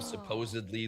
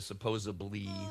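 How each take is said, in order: First: The word is said with a 'd' sound. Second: The word is said with a 'b' sound. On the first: The speaker calls it right. "instead of" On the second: The speaker calls it wrong. "they went to"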